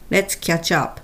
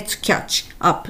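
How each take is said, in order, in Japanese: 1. 「'catch'と'up'は、つながって一つのまとまりになります。」 2. 「'catch'と'up'は、別々の単語として言います。」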